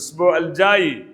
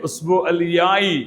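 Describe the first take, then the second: First: The last word begins with a 'j' sound. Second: The last word begins with a 'y' sound.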